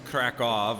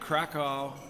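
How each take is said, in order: First: The ending is said with a V sound. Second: The ending is said with a W sound. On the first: The speaker calls it right. "it sounds like a V" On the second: The speaker calls it wrong. "I'm doing the American pronunciation of the W like a W"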